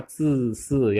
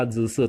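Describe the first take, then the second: First: ZISI with a voiceless ts start; crisp unvoiced opening on ZISI; correct reading. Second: ZISI with a voiced j, je-se; buzzing first consonant in ZISI; wrong reading. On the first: Teacher correcting students, voiceless initial. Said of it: "tapi dibaca zisi". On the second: Teacher showing the misreading, voiced initial. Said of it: "bukan dibaca zisi". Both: Shown as a demonstration.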